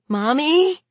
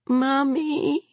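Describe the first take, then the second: First: High, rising worried call; small child calling out in alarm. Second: High, thin, plaintive call; small child calling miserably; miserable child. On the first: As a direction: ask it high, with alarm climbing through the word. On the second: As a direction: draw it out high and forlorn. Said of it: "Tad said miserably". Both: A narrator's reading.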